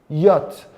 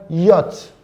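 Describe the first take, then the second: No difference in how they are said.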